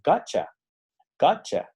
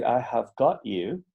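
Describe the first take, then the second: First: "Gotcha" as one quick word, higher; reduced to gotcha. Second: Slow, each word clear: "I have got you"; full careful form. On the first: Teacher shows the advanced reduced form, higher. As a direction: squeeze it into "Gotcha". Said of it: "algo así como". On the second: Teacher gives the correct but intermediate version, slow. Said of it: "Tú puedes decir". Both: Shown as a demonstration.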